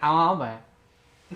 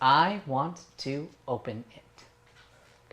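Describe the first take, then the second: First: The words are slurred and run together. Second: Each word is said clearly and separately. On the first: The speaker calls it wrong. "That's what that sounded like" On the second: The speaker calls it right. "I'm exaggerating, but this is the diction part"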